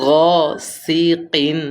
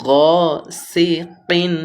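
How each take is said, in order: The two takes are said the same way.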